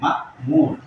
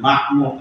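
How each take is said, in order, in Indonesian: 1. Diucapkan dengan hamzah. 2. Diucapkan tanpa hamzah. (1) "tapi ma'mur, bil hamzah" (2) "bukan ma'mur"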